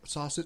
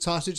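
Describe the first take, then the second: First: The word is said quietly. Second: The word is said loudly.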